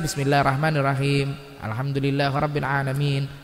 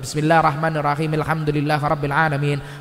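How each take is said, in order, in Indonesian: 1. Setiap ayat dipisahkan dengan jeda. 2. Ayat-ayatnya disambung cepat tanpa jeda. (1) "Sing nek dipisah" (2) "niki lebih cepat"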